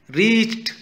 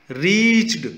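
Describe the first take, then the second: First: Reached ending in a crisp T, high and loud; reached corrected so it ends in T; ending in a T sound. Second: Reached ending in a D, said loud and high; reached said with a D ending, then corrected; slip to a D ending. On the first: Teacher corrects reached to a T ending for the class. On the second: Teacher's first reading of reached, with a D ending. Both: Shown as a demonstration. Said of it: "ट sound है".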